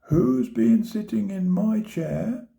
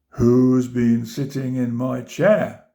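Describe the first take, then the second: First: It is said in a medium-sized voice. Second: It is said in a big, deep voice. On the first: "she said in her middle-sized voice" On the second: "he cried in his big voice"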